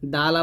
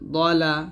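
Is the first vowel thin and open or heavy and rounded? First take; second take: thin; heavy. First: The first vowel is thin and open, like aa. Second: The first vowel is heavy, dark and rounded. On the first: The speaker calls it wrong. "বলা যাবে না" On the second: The speaker calls it right. "দ বলতে হবে"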